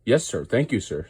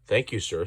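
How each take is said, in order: First: Happy. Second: Said in the usual way. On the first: A narrator's reading. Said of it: "said Percy happily". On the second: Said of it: "Edward answers plainly".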